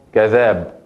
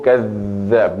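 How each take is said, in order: First: Said in the usual way. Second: كذاب with the ذ doubled and stressed; with shadda. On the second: Shown as a demonstration. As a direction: press the ذ hard in كذاب. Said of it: "Por eso digo ... no". (كذاب con shadda marcada)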